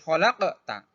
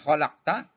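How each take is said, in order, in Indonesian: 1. Bunyi q ada gema pantulannya. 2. Bunyi q tertutup tanpa gema sama sekali.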